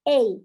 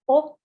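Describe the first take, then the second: First: It is the long vowel of cape. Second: It is the rounded vowel of ball. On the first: "in cape, it will be more like a A" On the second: "you will read as a O ball"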